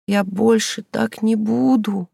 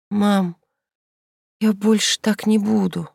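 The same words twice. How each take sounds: First: Slow high sobbing plea. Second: Wheezing. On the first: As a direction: beg through tears, drawn out. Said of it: "зарыдала она". (рыдая, медленно и высоко) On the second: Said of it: "просипела Инка". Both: A narrator's reading.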